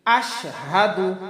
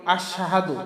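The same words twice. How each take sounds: First: আশহাদু slow, আশ and হাদু split clearly; separate ash and hadu. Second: আশহাদু run together quickly, unseparated; the careless slurred আশহাদু many people say; common wrong way. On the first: Teacher models the correct আশহাদু for students. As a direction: say আশহাদু with a distinct break after আশ. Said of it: "এখানে হবে আশ আলাদা". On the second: Teacher imitates the common mistake in আশহাদু. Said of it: "আমরা অনেকে বলি আশহাদু". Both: Shown as a demonstration.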